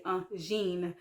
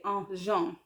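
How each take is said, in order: First: "un jean" said as "un zheen"; English vowel kept. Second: "un jean" said like the name Jean, "zhahn"; wrong French reading. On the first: Learner showing what you have to say, "un jean" as "un zheen". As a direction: say "jean" in "un jean" with a long "ee". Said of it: "You have to say". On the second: Learner showing what you can't say, "un jean" as "un zhahn". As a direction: say "jean" in "un jean" with a nasal "ahn". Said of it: "you can't say". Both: Shown as a demonstration.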